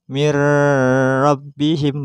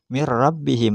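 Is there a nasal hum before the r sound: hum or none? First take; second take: hum; none. First: The n sound carries a nasal hum into r. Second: The n merges straight into r without hum. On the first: The speaker calls it wrong. "Bukan mir rabbihim bukan ya" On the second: The speaker calls it right. "langsung tanpa gunah"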